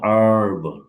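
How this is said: It is said with an American accent.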